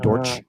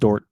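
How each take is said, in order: First: The name ends with a 'ch' sound. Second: The name ends without a 'ch' sound. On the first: "but it might be" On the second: "I think it's just Dort"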